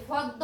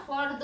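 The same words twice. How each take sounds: First: ফদ্দ as "fod-do", without any r; r dropped, d doubled. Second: ফর্দ as "for-do", r clearly heard; r sounded. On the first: Teacher showing the mistake, ফদ্দ with doubled d. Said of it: "হবে না". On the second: Teacher giving the correction, r sounded in ফর্দ. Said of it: "আমাদের র উচ্চারণ হবে". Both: Shown as a demonstration.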